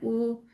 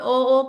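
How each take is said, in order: First: The vowel is a close 'oo' sound. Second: The vowel is a mid 'o' sound. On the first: The speaker calls it right. "ऐसे करना है" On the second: The speaker calls it wrong. "Urdu में तो ओ ओ कर रहे हो, तो ऐसे नहीं करना है"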